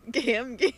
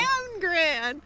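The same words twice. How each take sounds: First: Said in the usual way. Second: Higher, cracking with laughter; higher laughing stumble over the name; laughing mangled name. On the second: Real, not acted. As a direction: giggle out the garbled nickname.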